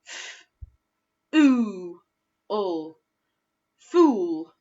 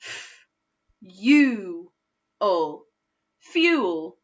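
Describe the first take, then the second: First: "fool" with long oo; oo-way blend. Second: "fuel" as fyool; u-way blend. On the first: Teacher trying the first vowel for pupils. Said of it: "use the oo first". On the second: Teacher trying the second vowel for pupils. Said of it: "try it the second way". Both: Shown as a demonstration.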